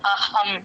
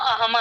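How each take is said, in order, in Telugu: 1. 'h' ధ్వని గాలితో కూడినది, గాలి బయటకు వదలబడుతుంది. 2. 'h' ధ్వని బలహీనంగా ఉంటుంది, గాలి తక్కువ ఉంటుంది. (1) "గాలి బయటకు వదలాలి" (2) "అహం అనేస్తారు చూడండి కొంతమంది"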